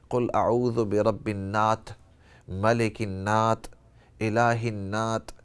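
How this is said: It is said Banu Tamim style, with t sounds.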